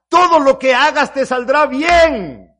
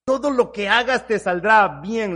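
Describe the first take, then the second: First: Loud, slow, high proclamation; proclaiming. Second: Said in the usual way. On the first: Acted. Preacher proclaiming God's promise loudly. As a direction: ring it out to the congregation.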